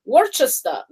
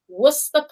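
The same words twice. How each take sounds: First: The name is said as it is spelled. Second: The name is said in a shortened form. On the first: This is how an ordinary reader would guess it. The speaker calls it wrong. "you'd read every normal person Worcester" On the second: This is how locals actually say it. The speaker calls it right. "But they say it Worcester Park"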